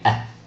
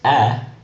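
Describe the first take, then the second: First: The vowel is clipped shorter. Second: The vowel is held longer. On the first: "has a much shorter A" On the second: "accent grave is A"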